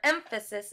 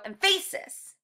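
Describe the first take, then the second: First: The stress is on the first syllable. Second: The stress is on the middle syllable. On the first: The speaker calls it right. "the emphasis in the word emphasis is in the beginning, in that M sound" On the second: The speaker calls it wrong. "It would sound really weird if we were to go emphasis and emphasize the middle of the word"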